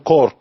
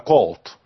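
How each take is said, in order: First: An r sound is pronounced after the vowel. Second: No r sound is pronounced after the vowel. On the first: The speaker calls it wrong. "احنا هنا في مصر ممكن نقول كورت" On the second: The speaker calls it right. "بس هي في اللغه كولت ... ما فيش ار خالص"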